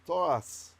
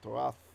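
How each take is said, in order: First: The word ends with an s sound. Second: The word ends with a th sound. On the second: "even with the ancient pronunciation"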